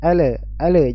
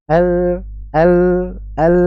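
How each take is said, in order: First: The L sound bounces with a short added vowel. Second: The L sound flows on without any bounce. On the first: The speaker calls it wrong. "jangan dipantulkan juga ya" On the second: The speaker calls it right. "Jadi suaranya kita alirkan"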